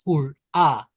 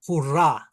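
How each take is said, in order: First: "hurrah" with falling tune, open "a" sounds, h dropped; example word. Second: "hurrah" with a clear h and falling end; example word repeated. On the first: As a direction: model "hurrah" for the vowel. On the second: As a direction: say "hurrah" again with the h sounded. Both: Shown as a demonstration. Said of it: "a, as in".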